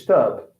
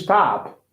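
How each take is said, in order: First: British "stop", shorter vowel, lower pitch; British accent. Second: American "stop" with an open "ah" vowel; American accent. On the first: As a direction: say "stop" low, British-style. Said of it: "Okay, British". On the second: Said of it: "in, uh, American English". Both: Shown as a demonstration.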